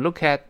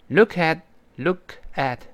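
First: Words linked, the final t not released. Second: The two words are said separately.

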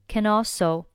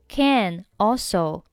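First: The two words run together without a break. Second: The two words are said separately.

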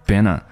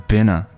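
Both takes have the same delivery.

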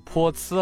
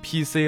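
First: It is read as pinyin syllables po ci. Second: It is read as English letter names. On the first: The speaker calls it right. "拼音的读法应该是泼呲了啊" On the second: The speaker calls it wrong. "不对"

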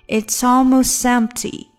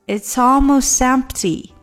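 Both takes have the same delivery.

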